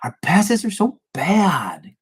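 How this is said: It sounds irritated and frustrated.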